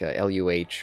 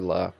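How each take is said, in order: First: It is spelled out as separate letters. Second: It is said as a single word. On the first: It is a cold corporate designation. "refer to them just in their designations" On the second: It is a personal, human way of naming. "they would just like pronounce the name"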